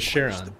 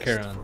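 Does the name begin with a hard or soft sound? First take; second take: soft; hard. First: The name begins with a soft sound. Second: The name begins with a hard sound. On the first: "I always read it as Charon" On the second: "is that a hard CH?"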